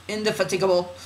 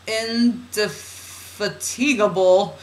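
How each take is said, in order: First: INDEFATIGABLE run off quickly in one go; fast word. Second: INDEFATIGABLE stretched slowly, syllable by syllable; drawn-out word. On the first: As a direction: rattle off "indefatigable" without drawing it out. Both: Shown as a demonstration. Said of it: "saying that word fast like that".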